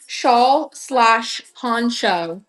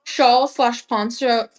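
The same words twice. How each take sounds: First: SHAWL, SLASH, PONCHO very slowly, one word at a time; careful enunciation. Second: Said in the usual way. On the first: Real, not acted. Practising a tongue twister for viewers, "Shawl slash poncho" enunciated very slowly. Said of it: "really enunciate my words". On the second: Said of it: "I feel like I'm a good enunciator".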